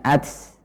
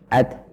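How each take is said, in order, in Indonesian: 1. Huruf t di akhir berakhir dengan hembusan udara yang mendesis seperti s. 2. Huruf t di akhir berakhir dengan hembusan udara yang ringan. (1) "ini adalah terlalu banyak" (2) "kita mengeluarkan udara setelahnya"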